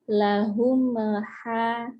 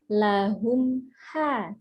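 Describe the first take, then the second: First: The m is opened early into ha. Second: The m is held closed before ha. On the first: The speaker calls it wrong. "jangan sampai" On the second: The speaker calls it right. "jangan buka dulu mimnya sebelum ke H"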